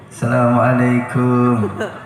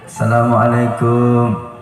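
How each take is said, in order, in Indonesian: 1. Diucapkan seperti orang memanggil di depan pintu. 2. Diucapkan seperti orang memanggil di depan pintu.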